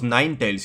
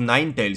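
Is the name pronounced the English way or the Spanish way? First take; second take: English; English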